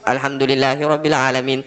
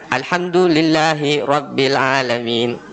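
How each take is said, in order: First: The words are run together without any break. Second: The words are slightly separated with some emphasis. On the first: The speaker calls it wrong. "pengucapan kita menyambung langsung" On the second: The speaker calls it right. "Sebenarnya mestinya ada sedikit ada tekanan"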